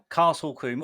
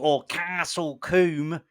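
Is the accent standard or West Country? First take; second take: standard; West Country. First: It is said in a plain, standard accent. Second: It is said in an exaggerated West Country accent.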